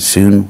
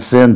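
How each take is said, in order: First: The prefix is said like 'shun'. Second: The prefix is said like 'sin'. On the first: "Greek S Y N, shun, which they pronounce like that" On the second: "the S Y N, sin"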